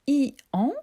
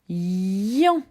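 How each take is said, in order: First: The i is a separate vowel before an. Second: The i is a y sound joined to an. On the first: The speaker calls it wrong. "je ne la lis pas I an" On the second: The speaker calls it right. "Cette lettre I va faire le son Y"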